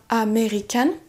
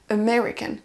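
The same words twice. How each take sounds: First: The stress is not on the second syllable. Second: The stress is on the second syllable. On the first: The speaker calls it wrong. "On ne dira pas American" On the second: The speaker calls it right. "On va accentuer sur la deuxième syllabe"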